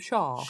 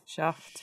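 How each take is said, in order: First: The word is said in an English accent. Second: The word is said in a Scottish accent. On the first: "in an English accent, it is wrong, because we're calling him Shaft" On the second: "if you're Scottish or something, you'll say Shaft"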